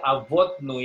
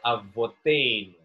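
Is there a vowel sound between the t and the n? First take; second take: No; Yes. First: The t and n are said with no vowel between. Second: An e vowel is said between t and n. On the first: The speaker calls it wrong. "dia tidak baca Avotnu" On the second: The speaker calls it right. "tapi dia baca Avotenu"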